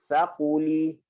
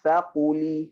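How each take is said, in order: Both takes have the same delivery.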